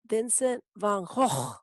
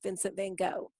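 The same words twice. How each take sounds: First: The name has a throaty, raspy, throat-clearing sound. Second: The name is said plainly without a throaty rasp. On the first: "the correct pronunciation is Vincent van Gogh. But I feel like I'm clearing my throat every time I say that" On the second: "so I'm going to just go with Vincent van Gogh"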